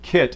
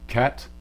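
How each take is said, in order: First: The vowel is the usual high kit vowel. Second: The vowel is lowered, sounding close to dress. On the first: "Instead of kit" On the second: "the low placement there might make it go ket"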